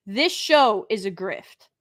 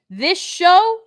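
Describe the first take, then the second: First: Said in the usual way. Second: "This show" thrown out high and loud, rising; a sudden loud burst on "This show"; emphatic restart. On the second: Real, not acted. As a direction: hit "show" hard and let it lift.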